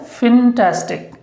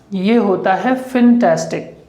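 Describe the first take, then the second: First: "फिनटेस्टिक" said with a short i first syllable; correct pronunciation. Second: "फिनटेस्टिक" with a short i in the first syllable; correct pronunciation. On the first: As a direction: repeat "फिनटेस्टिक" clearly. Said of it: "क्या होता है?". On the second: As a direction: say "फिनटेस्टिक", not fantastic. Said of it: "ये फंटास्टिक नहीं होता". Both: Shown as a demonstration.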